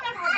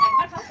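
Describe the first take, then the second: First: A mother's higher, strained plea for just one bite; high pleading. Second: Shouted plea. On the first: Mother begs her sick daughter to eat, high pleading. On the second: Mother shouts at her refusing daughter, high desperate cry. Begging child to eat. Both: Real, not acted.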